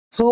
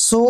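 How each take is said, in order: First: "সু" as a soft thu. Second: "সু" with a firm hissing s; slightly hard s. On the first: Teacher contrasts tha with sin, soft sound. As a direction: let the "স" of "সু" out gently, tongue at the teeth. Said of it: "নরম করে". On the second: Teacher contrasts sin with tha, firmer sound. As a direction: sharpen the "স" of "সু" a little. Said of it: "একটু শক্ত হবে". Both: Shown as a demonstration.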